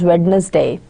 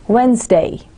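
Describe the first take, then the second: First: The d in the middle is clearly pronounced. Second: The d in the middle is silent. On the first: The speaker calls it wrong. "where D is not kept silent" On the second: The speaker calls it right. "the exact correct pronunciation, standard pronunciation"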